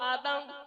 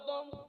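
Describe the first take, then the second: First: The first vowel is an open 'a' sound. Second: The first vowel is a rounded 'o' sound. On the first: This is the form used in the Quran. "কোরআনের শব্দ হলো আদম" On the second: This is the form used in the Bible. "বাইবেলের শব্দ হলো অদম"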